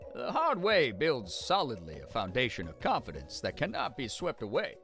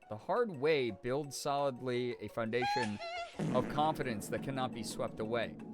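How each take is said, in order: First: It is read in an old Southern character voice. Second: It is read in the speaker's own normal voice. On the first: The speaker calls it right. "Sometimes you have to get into the character" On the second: The speaker calls it wrong. "I wasn't doing it in the voice"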